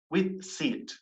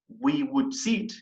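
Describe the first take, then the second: First: Would is shortened and joined to we. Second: Would is said in full as a separate word.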